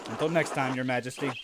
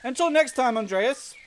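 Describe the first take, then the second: First: Low, understated farewell to a monarch; subdued, deferential goodbye; hero's reply. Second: Higher, louder monarch voice; lofty acted send-off; royal farewell. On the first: Acted. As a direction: answer in a lower, everyday voice. Hero answers the royal figure. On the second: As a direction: call a regal goodbye, pitched up. Royal figure's farewell read aloud.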